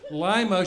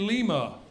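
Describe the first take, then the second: First: It uses the local Ohio pronunciation. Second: It uses the standard pronunciation. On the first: The speaker calls it wrong. "not pronounced the way they should be" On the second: The speaker calls it right. "should be"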